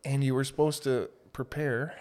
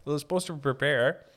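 First: Bubble in throat. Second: Said in the usual way. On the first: Real, not acted. Recalling an audition workshop, real bubble in the throat. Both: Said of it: "Little bubble in the throat there".

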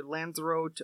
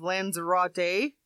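First: "Lanzarote" ending in -rote, no final vowel; English style. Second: "Lanzarote" with the final e said, lan-za-RO-te; Spanish style. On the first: Newsreader offering the anglicised "Lanzarote" as the alternative. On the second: Newsreader trying the Spanish "Lanzarote" with a full final syllable. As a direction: say "Lanzarote" ending on a clear -te. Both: Shown as a demonstration. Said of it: "or Lanzarote".

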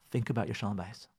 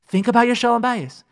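First: Much softer, lower, almost confiding "Think about your shalom bayis"; quiet. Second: Higher, louder "Think about your shalom bayis" with a firm fall; emphatic. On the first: Rabbi urging listeners toward peace at home, softly. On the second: Rabbi urging listeners toward peace at home, emphatically. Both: Shown as a demonstration.

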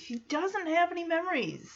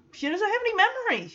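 First: Said in the usual way. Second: "have" punched high and fast, stressed hard. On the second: Real, not acted. Stressing "have" while telling of Michelle's amnesia.

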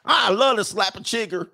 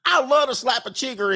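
First: High mock Southern yokel. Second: Pitched even higher and hammier; high mock Southern yokel. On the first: Southern local bragging about bugs, hammed-up high yokel voice. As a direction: play the country yokel with relish. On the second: Southern local bragging about bugs, even higher hammed-up yokel voice. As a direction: push the yokel voice further.

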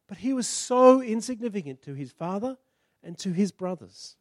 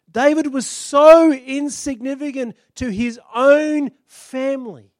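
First: Said in the usual way. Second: "so" stretched long and punched louder; slow, higher and louder on "so insignificant"; stress on so. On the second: Shown as a demonstration. Preacher to congregation, leaning hard on "so".

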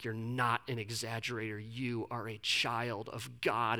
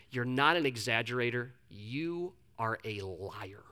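First: Low, soft, slowing imagined comfort; heartfelt reassurance. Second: Low imitated mentor, dropping soft and very slow; stone-cold verdict. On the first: Retold or imitated. Mentor comforts a confessing friend as God's child, soft heartfelt reassurance. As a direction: gently voice the mentor's hoped-for tenderness. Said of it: "heartfelt moment where he's like". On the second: Mentor corrects the confessing preacher, stone-cold and deliberate. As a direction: deliver the blow slowly, low and stony. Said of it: "the most stone".

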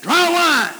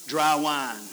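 First: "Dry wine" thrown out high and loud in disbelief; incredulous. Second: Said in the usual way. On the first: Shown as a demonstration. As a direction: say "Dry wine" as if it were absurd. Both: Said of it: "No, wait a minute".

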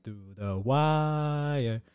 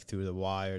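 First: Higher, very slow drawn-out intro call; podcast intro voice. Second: Said in the usual way. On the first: Retold or imitated. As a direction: stretch it like a show opener. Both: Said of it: "it's like".

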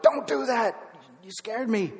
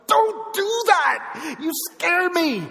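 First: Retold angry blurt, higher but restrained; frustrated blurt. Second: Loud, drawn-out high yell of frightened anger; angry outburst. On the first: Retelling his outburst at Amy in the car, frustrated blurt. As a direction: blurt it out with a bit of anger. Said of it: "I kind of blurted out". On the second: Retold or imitated. Driver snapping at Amy after a scare, angry shout. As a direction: burst out in a startled, stretched-out shout. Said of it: "I was mad".

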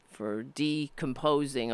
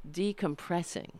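First: "decomposing" said by mistake, slow and falling; wrong word slip. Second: "decompressing" said softly as the right word; corrected word. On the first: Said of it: "is that de-, decomposing?". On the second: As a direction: settle on "decompressing", quieter and sure. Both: Real, not acted.

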